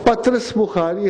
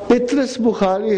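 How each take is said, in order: First: The first syllable has an a vowel. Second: The first syllable has an i vowel.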